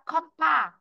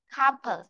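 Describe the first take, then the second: First: The stress is on the second syllable. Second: The stress is on the first syllable. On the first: The speaker calls it wrong. "thì nó sẽ rơi vào vị trí thứ hai rồi" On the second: The speaker calls it right. "trong âm nó rơi vị trí thứ nhất"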